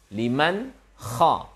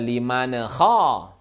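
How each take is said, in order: First: The n is pronounced clearly with no added vowel. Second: The n bounces with an extra vowel after it. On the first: The speaker calls it right. "Idhar halqi" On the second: The speaker calls it wrong. "Jangan dibaca"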